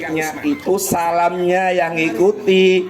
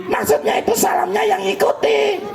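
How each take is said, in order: First: Said in the usual way. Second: High puppet voice parroting the line; puppet copying. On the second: Acted. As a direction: echo it back as the cheeky puppet. (suara boneka tinggi menirukan) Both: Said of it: "Kok jadi ngomongnya [name] diikuti".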